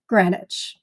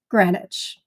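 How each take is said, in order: First: Short E vowel, with the W left silent. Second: The same.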